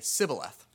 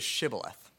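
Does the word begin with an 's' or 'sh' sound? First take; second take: s; sh. First: The word begins with a plain 's' sound. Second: The word begins with an 'sh' sound. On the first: The speaker is an outsider to the group. The speaker calls it wrong. "couldn't pronounce that word exactly right, ... So they would say sibboleth" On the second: The speaker belongs to the group. The speaker calls it right. "The word is shibboleth"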